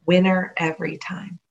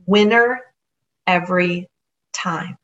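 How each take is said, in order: First: Said in the usual way. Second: Winner, every, time spaced out with pauses, each word set apart; slow sign reading. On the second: Shown as a demonstration.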